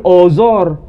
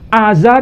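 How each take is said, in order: First: The vowels are pronounced as rounded 'o'. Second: The vowels are pronounced as open 'a'. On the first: This is how Persians read the name. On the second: This is the usual local form of the name.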